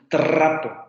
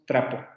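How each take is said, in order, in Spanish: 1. La r es vibrante múltiple. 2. La r es vibrante simple, un toque suave. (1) "no decimos trapo" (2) "decimos trapo"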